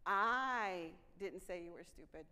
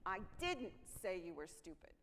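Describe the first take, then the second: First: "I" punched loud and slow, rest trailing; stress on I. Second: "didn't" pressed hardest, the rest even; stress on didn't. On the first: Trainer demonstrating stress, with "I" hit loud and slow. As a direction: lean hard on "I" in "I didn't say". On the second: Trainer's second take, with "didn't" leaned on. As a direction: hit "didn't" in "I didn't say". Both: Shown as a demonstration. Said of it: "how this is gonna go".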